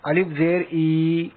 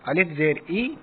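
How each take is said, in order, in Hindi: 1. आवाज़ें धीरे-धीरे खींचकर बोली गई हैं। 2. आवाज़ें छोटी और जल्दी बोली गई हैं। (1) "अब आपको इस तरह नहीं पढ़ना है बिल्कुल भी ... अगर आप इसको खींच देंगे तो यह गलत हो जाएगा" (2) "बल्कि जल्दी से पढ़ना है"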